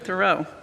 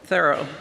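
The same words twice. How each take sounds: First: The name does not sound like 'thorough'. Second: The name sounds like the word 'thorough'. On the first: The speaker calls it wrong. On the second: The speaker calls it right.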